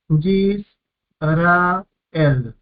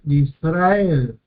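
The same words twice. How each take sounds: First: "Yis, ra, el" con pausa tras cada sílaba; separado en sílabas. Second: Said in the usual way. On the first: Shown as a demonstration. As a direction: marca las tres sílabas de "Yis, ra, el". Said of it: "tres sílabas". ("Yis, ra, el" sílaba por sílaba, como profesor)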